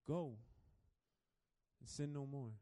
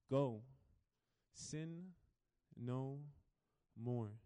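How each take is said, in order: First: Said in the usual way. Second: "Go", "sin", "no", "more" spoken one by one with long pauses between; each word set apart. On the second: Shown as a demonstration. Preacher spelling out Jesus' command to the congregation, word by word.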